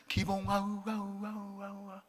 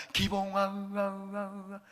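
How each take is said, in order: First: A call that echoes away softer and softer; God's echoing voice. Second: A comic echo that dies out, played for a laugh; God's echoing voice, retold. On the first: Pretend. God calling the pastor by name, echo fading to nothing. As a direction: let each 우와 fade out like an echo in a hall. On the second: Pastor retries the joke for the congregation, echo fading. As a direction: call the name, then let 우와 echo away into silence. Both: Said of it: "다시 한번 하겠습니다".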